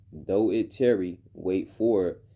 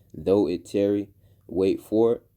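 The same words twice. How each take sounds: No difference in how they are said.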